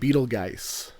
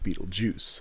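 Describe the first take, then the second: First: The name ends with a 'geist' sound. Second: The name ends with a 'juice' sound. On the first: The speaker calls it wrong. "she keeps pronouncing it Beetlegeist" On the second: The speaker calls it right. "when in actuality it's Beetlejuice"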